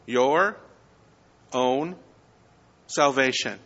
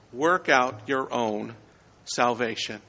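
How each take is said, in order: First: "Your", a pause, then "own" set apart, then "salvation" falling; stress on own. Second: Said in the usual way. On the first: Shown as a demonstration. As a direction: hold a beat before and after "own" to make it stand out. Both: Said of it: "put the emphasis on one of those three words".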